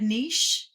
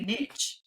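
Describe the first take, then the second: First: It is pronounced in a fancy, non-Southern way. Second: It is pronounced in a Southern way. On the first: "you said so beautifully and correctly ... I feel all fancy and uppity" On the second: "for anybody Southern listening"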